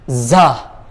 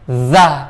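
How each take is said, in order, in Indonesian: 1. Diucapkan dengan hembusan udara yang kuat. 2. Diucapkan tanpa hembusan udara. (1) "bukan za" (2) "nggak ada udara yang terhentak secara keras"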